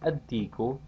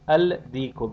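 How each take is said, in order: First: The l merges into a doubled d. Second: The l is pronounced before the d.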